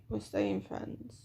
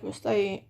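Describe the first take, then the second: First: Staying stretched slowly and quietly; slow, soft emphasis. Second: Said in the usual way. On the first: Real, not acted. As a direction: lean slowly on staying friends.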